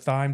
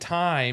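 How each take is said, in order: First: The word begins with a TH sound. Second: The word begins with a plain T sound. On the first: It makes the herb pun understandable. "I had to make the H not a silent H" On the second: The herb pun would not be understood. "if I'd have said time, I wouldn't have understood"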